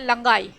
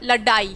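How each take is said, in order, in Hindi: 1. बीच का व्यंजन नासिक्य ng ध्वनि है। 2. बीच का व्यंजन एक सामान्य मूर्धन्य ड है। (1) "ना कि हम ऐसे बोलेंगे लंगाई" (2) "अगर हमने ये बिंदी हटा दी तो क्या शब्द हो जाएगा"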